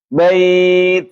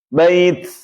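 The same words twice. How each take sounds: First: The final consonant is a clean t sound. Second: The final consonant is shifted toward an s sound. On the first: The speaker calls it right. "Ini enggak" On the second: The speaker calls it wrong. "geser tuh"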